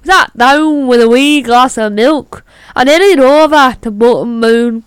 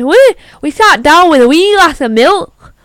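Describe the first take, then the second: First: Put-on Belfast Irish accent. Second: Put-on Scottish accent, higher and louder; a Scottish accent slips into the line; Scottish lilt, punchy and raised; accidental Scottish accent. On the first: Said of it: "Belfast is an island, not Scotland". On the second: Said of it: "I sounded Scottish there".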